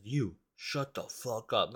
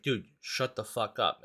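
First: Slow, drawn-out mock threat; menacing retold order, stretched out slowly; intimidating. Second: Said in the usual way. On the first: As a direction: imitate someone trying to intimidate, word by word. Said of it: "like, trying to intimidate us".

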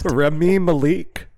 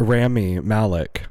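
First: "Remy Malik" high and slow, ending on a long "LEEK"; mocking mispronunciation. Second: "Rami Malek" said slowly, stress on first syllables; corrected name. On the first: Co-host mimicking the attempt, "Remy Malik" high, drawn-out "ma-LEEK". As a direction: exaggerate "Remy Malik" as "reh-MEE ma-LEEK". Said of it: "I tried to really bring in the sauce". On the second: Shown as a demonstration. Co-host correcting her, "Rami Malek" slow, as "RAM-ee MAL-ick". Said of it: "I tried my best".

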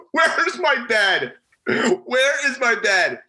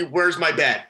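First: Higher, slow, drawn-out disbelief; incredulous whine. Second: Said in the usual way. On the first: Retold or imitated. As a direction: stretch it out like you can't believe it's gone. Pierce panics over missing bed.

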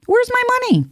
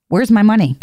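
First: Where's pitched way up in a squeal; squeaky mock demand. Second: Said in the usual way. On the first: Shown as a demonstration. Joking millionaire asking for cash, squeaky high Where's. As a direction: squeal the question like a cartoon.

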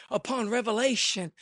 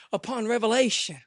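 Both takes have the same delivery.

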